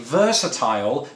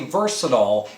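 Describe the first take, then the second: First: The last syllable rhymes with tile. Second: The last syllable is short and reduced. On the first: "I say versatile, just like I say crocodile" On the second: "Americans say versatile"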